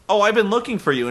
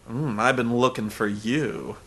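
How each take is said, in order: First: It is said in a plain, ordinary tone. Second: It is said in a seductive, suggestive tone.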